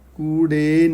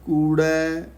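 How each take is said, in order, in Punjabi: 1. ਸ਼ਬਦ ਦਾ ਅਖੀਰਲਾ ਸਵਰ 'e' ਹੈ। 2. ਸ਼ਬਦ ਦਾ ਅਖੀਰਲਾ ਸਵਰ 'ai' ਹੈ। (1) "ਕੂੜੇ ਨਹੀਂ ਕਹਿਣਾ" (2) "ਰਾੜੇ ਨੂੰ ਦੋ ਲਾਵਾਂ ਨੇ"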